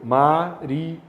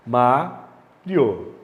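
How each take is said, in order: First: "Mario" read as Ma-ri-o, stress on the first syllable; syllables split apart. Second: Said in the usual way. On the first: Shown as a demonstration. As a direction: say "Mario" as three separate syllables. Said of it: "Separa o I e o O". ("Mario" com o I e o O separados, Ma-ri-o) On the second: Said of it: "Bota de volta aqui".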